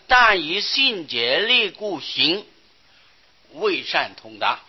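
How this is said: The pause comes after the word 行. The speaker calls it right. "这个圈应当要在行字下面"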